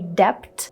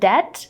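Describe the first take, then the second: First: A B sound is pronounced. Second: The B is silent. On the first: The speaker calls it wrong. "they want to say debt" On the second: The speaker calls it right. "instead of saying debt"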